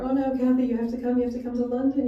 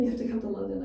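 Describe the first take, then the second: First: Pleading caller. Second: Said in the usual way. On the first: Retold or imitated. Callers beg her to come.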